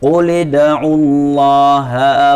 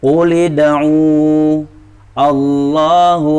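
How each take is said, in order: First: The final vowel of id'u is short and joined. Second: The final vowel of id'u is long, then stopped. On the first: The reading continues without stopping. "ini yang wasal" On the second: The reading stops after the word. "dibaca panjang"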